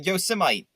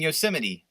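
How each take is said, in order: First: The ending is read like 'mite', rhyming with 'Vegemite'. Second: The ending is said 'mitty', with four syllables. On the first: The speaker calls it wrong. "I pronounced that wrong because my eyes are stupid" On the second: The speaker calls it right. "I mean Yosemite"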